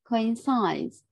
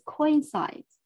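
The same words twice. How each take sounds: First: The stress falls on a later syllable. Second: The stress falls on the first syllable. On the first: The speaker calls it right. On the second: The speaker calls it wrong.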